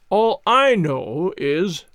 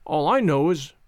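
First: Slow, loud and firm; loud slow assertion. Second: Said in the usual way. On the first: Acted. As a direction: assert it loudly and slowly. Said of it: "loudly asserted".

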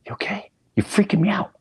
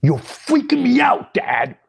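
First: High-pitched, uneasy check-in; nervous concern. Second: Very high, louder retold panic; alarmed outburst. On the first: Retold or imitated. Son to Dad lost in a flashback, nervous concern. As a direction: ask with rising unease, voice pitched up. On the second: Son to unresponsive Dad, alarmed high outburst. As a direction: escalate into a loud, squeaky plea.

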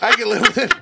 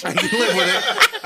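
First: Said in the usual way. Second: Much higher, laughing through the words; giggled out, high. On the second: Real, not acted. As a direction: say it while cracking up. Repeats the line, laughing.

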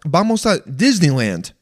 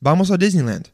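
First: "Disneyland" in broad American English; mock American-accented "Disneyland"; super Englishy American accent. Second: "Disneyland" run into the Spanish phrase; easy Spanish-accented "vamos a Disneyland". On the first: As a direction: switch to exaggerated English for "Disneyland". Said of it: "super Englishy". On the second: Retold or imitated. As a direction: keep Spanish rhythm through "Disneyland". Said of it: "They just go".

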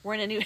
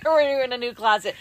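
First: Said in the usual way. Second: Loud, laughing through the words. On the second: Real, not acted. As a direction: still giggling as you say it. Repeats line after laughing.

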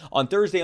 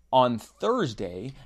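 First: Said in the usual way. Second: THURSDAY stretched out slowly; very slow, lingering "Thursday"; speaking slowly. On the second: Real, not acted. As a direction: draw out "Thursday" to stall for time. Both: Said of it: "I'm speaking slowly".

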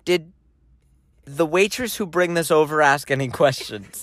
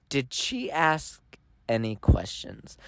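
First: Retold deadpan question in a monotone. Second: Slow, low imitation, spacing out "Did she ask any questions"; "Did she ask ... any questions", slowly and deliberately emphasized; repeated for emphasis. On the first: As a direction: ask it evenly, giving nothing away. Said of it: "I said that in a monotone tone". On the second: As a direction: draw out "ask" and pause before "any questions". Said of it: "I'm gonna repeat for emphasis".

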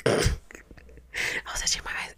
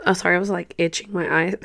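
First: Breathy whisper after a cough, slower. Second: Said in the usual way. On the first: Real, not acted. Apologizing to viewers in a faint whisper. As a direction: voice nearly gone, she whispers the line again. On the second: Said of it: "sorry, my voice is like".

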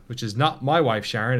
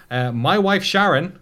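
First: "my" lifted with a rise; stress on my. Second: "My Wife Sharon" announced slowly, high and loud; sponsor name announced. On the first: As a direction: lean on "my" in "my wife Sharon". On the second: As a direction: boom out "My Wife Sharon" as a title. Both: Shown as a demonstration.

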